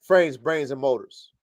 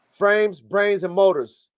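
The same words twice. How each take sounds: First: Said in the usual way. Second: Frames, brains, and motors said slowly, each word set apart; slow stress on Frames, brains, and motors; slow, spelled-out slogan. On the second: Shown as a demonstration. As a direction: lay out Frames, brains, and motors one deliberate word at a time.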